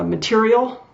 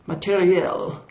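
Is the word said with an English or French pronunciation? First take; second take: English; French. First: It is said with an English pronunciation. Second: It is said with a French pronunciation.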